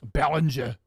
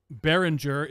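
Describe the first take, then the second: First: A mock German Behringer, the name said as Bälenscha; a hammed-up German accent on Behringer; terrible German accent. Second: Said in the usual way. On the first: Shown as a demonstration. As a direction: Behringer said as a badly faked German. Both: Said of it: "That's a terrible accent".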